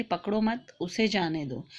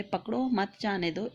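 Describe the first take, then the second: First: पकड़ो मत as one unit, a short break, then जाने दो; pause after मत. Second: पकड़ो set apart, then मत जाने दो together; pause after पकड़ो. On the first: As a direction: put the comma pause right after मत. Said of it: "वाक्य के बीच में अल्प विराम". (मत के बाद अल्प विराम) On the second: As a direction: put the comma pause right after पकड़ो. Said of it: "अल्प विराम चिन्ह पकड़ो के बाद लगा देते". (पकड़ो के बाद अल्प विराम) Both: Shown as a demonstration.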